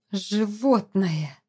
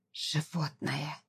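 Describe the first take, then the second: First: Slow, drawn-out angry hiss; furious hiss. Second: Hushed, slow hiss of rage; furious hiss. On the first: Wife hisses at the husband who kissed her, angry and slow. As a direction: hiss the insult slowly, with contempt. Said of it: "прошипела она". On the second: Wife repeats the insult to her husband, hissing quietly in fury. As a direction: repeat it much softer, drawn out and venomous. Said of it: "всё так же яростно повторила Зара". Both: A narrator's reading.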